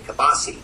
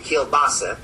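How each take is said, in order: First: The word is said without an L sound. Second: The word is said with an L sound. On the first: This is how one family or region said it. "I don't say the L" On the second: This is how most people say it now. "now people say kielbasa"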